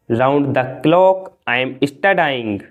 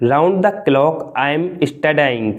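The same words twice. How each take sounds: First: Slow, careful model sentence; slow and clear. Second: Said in the usual way. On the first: Shown as a demonstration. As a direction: spell it out for learners. (धीरे और साफ़) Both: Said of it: "चौबीस घंटों से मैं पढ़ रहा हूँ।".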